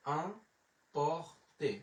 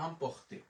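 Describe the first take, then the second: First: Emporter drawn out very slowly in separate syllables; slow teaching demo of emporter, piece by piece. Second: Said in the usual way. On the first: Shown as a demonstration. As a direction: break emporter into its sounds with long gaps. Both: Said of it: "তাহলে উচ্চারণ হলো".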